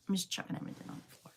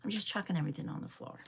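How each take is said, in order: First: Breathy whisper, quick and much softer; whispered repeat. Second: Said in the usual way. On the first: Real, not acted. Tidying up on stream, she whispers the line to herself again. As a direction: mutter it again under the breath, fast.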